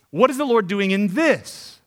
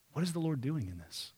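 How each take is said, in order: First: Louder and slow, pressing each word; slow, ringing preacher's challenge; emphatic question. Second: Asked much softer, almost to oneself; hushed, inward asking; soft question. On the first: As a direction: proclaim the question to the crowd. Repeated key question, loud take. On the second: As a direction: murmur the question quietly first. Repeated key question, soft take. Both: Acted.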